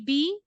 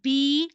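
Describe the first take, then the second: First: The vowel is short and not stretched. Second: The vowel is stretched out long. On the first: The speaker calls it right. "always will be B" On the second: The speaker calls it wrong. "don't say it B like in stretching way"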